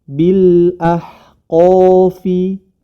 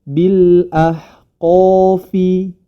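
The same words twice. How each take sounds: Both takes have the same delivery.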